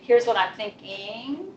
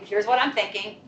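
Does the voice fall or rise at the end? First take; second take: rise; fall. First: The voice rises at the end. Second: The voice falls at the end. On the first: The speaker is checking that the listener understands. The speaker calls it wrong. "up talk is where you're in every sentence going up" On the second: The speaker is making a plain statement. The speaker calls it right. "you have a statement and a question"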